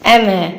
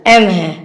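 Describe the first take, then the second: Both takes have the same delivery.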